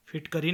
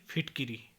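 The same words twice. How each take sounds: First: फिटकरी with a after k; mispronunciation. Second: Said in the usual way. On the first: Shown as a demonstration. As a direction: say phit-ka-ri for फिटकरी. (फिटकरी, क पर अ) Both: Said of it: "नहीं".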